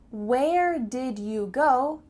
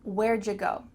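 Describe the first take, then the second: First: Every word is pronounced in full. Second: It is contracted, with 'you' said as 'ja'.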